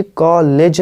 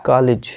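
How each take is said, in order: First: "कॉलेज" with full e, "kaa-layj"; wrong COLLEGE. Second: "कॉलेज" with short i, "kaa-lij"; correct COLLEGE. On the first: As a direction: say "कॉलेज" with a long second vowel. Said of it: "ये कॉलेज नहीं". ("कॉलेज" को "कालेज" बोलें, लंबी ए) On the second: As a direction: say "कॉलेज" with a quick second vowel. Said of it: "ये है कॉलेज". ("कॉलेज" को "कालिज" बोलें, छोटी इ) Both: Shown as a demonstration.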